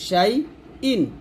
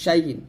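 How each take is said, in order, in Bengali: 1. গলা থেকে আসা হামজা দিয়ে শেষ অক্ষরটা শুরু হয়। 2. অক্ষরগুলো একসাথে মিশে যায়, মাঝে y-এর মতো একটা টান থাকে। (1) "ইন হলকে শুরুতে বলতে হবে" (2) "আমরা দুইটা একসাথে উচ্চারণ করি"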